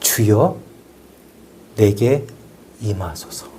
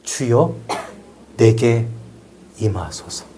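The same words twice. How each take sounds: The two takes are said the same way.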